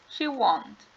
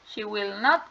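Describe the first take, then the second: First: The words 'will not' are contracted to one syllable. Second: The words 'will not' are said in full.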